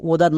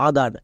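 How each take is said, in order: First: "ওদার" said with a rounded o at the start; wrong pronunciation. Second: "আদার" said with an open a at the start; correct pronunciation. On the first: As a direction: open ওদার with an o sound, as the mistake to avoid. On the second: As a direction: open আদার with a clear a sound, as the right form. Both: Shown as a demonstration. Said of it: "ওদার না কিন্তু".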